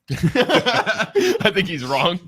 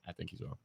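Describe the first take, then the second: First: It is said loudly. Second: It is said quietly. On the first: "say that louder" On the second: "They couldn't hear you"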